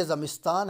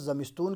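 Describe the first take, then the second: First: Said in the usual way. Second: زمستون with a long "oo" in the last syllable; Iranian pronunciation. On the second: Shown as a demonstration. Teacher showing how Iranians say it, زمستون ending in "-toon". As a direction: say زمستون Iranian-style, ending "-toon" rather than "-taan". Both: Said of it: "تو اس کو تلفظ زمستون کرتے ہیں".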